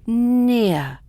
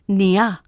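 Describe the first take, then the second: First: The word is one smooth, connected syllable. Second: The word is split into two separate syllables. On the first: The speaker calls it right. "one smooth sound" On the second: The speaker calls it wrong. "two separate syllables"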